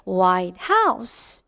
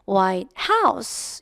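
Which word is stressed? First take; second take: House; House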